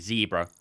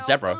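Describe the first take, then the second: First: A North American pronunciation with a long ee vowel. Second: A British pronunciation with a short first vowel. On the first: "you say it like there's three E's basically" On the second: "That's how we do it in the UK"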